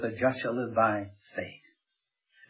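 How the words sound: The word faith is stressed. The focus is on what the righteous live by. "he puts the emphasis on the faith"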